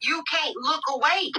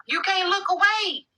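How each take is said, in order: First: Said in the usual way. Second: Higher, slow stretched "away"; drawn-out sing-song. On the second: Real, not acted. Telling the chat they can't stop watching, stretched and higher. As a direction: draw out the last word like a taunt.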